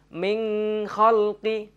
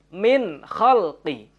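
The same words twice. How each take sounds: First: The n is held with a nasal hum. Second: The n is pronounced clearly and distinctly. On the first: The speaker calls it wrong. "Tidak boleh dibaca dengung" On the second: The speaker calls it right. "Tapi dengan jelas dan terang"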